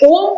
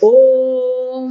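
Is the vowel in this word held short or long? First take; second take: short; long. First: The vowel is held only briefly. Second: The vowel is drawn out for three beats. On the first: The speaker calls it wrong. "ઓમ બોલીએ તો એ ખોટું બોલે આપણે" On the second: The speaker calls it right. "પ્લુત છે, એટલે ત્રણ માત્રા બોલવાનું"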